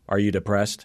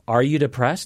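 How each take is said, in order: First: It sounds abrupt and dismissive. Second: It sounds warm and caring.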